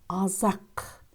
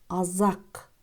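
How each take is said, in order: The two takes are said the same way.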